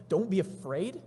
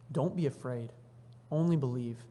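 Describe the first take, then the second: First: Rising, questioning disbelief; acted astonished repeat, lifting at the end; incredulous echo. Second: Low-key, measured reassurance; steady the father with unhurried words; acted calm, with a pause between phrases. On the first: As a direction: throw the words back as an absurd question. Onlooker throws the words back incredulously. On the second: Jesus reassures the grieving father.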